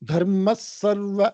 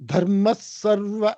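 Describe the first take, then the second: First: The first word blends into the next 's' sound. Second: The first word blends into the next 's' sound.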